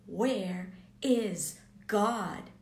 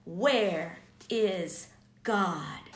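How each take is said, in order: First: Slow, louder mock scream of "Where is God?"; retold scream. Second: Slow, louder, drawn-out "Where is God?"; desperate homeless man. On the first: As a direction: drag out a half-shouted cry, imitating him. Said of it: "he started screaming". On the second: Retold or imitated. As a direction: stretch each word out like a lost, pleading soul. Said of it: "he looked at me and he said".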